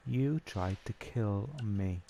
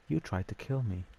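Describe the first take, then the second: First: Drawn out, word by word; half-speed, deliberate mock accusation; slow retold accusation. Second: Said in the usual way. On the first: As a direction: spell out the accusation very slowly. Retold accusation repeated slowly for emphasis.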